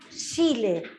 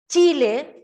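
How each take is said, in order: First: The first sound is a softer sh-like sound. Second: The first sound is a ch sound. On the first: "como pensando en una S más que en una C" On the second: "Nosotros decimos Chile"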